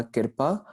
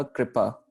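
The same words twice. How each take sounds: First: कृपा spoken "kirpa", i before the r; pronunciation demo. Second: कृपा spoken "kripa", r before the i; pronunciation demo. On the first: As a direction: say कृपा as kir-pa, vowel straight after k. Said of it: "इस शब्द का उच्चारण हो जाएगा". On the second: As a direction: say कृपा as kri-pa, k and r joined. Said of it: "और इस शब्द का उच्चारण". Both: Shown as a demonstration.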